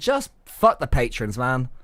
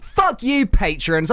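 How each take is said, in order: First: Said in the usual way. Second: Bad American accent. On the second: Co-host cusses the patrons in a failed American accent. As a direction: attempt an American accent, unconvincingly. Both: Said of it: "That's not even an American accent".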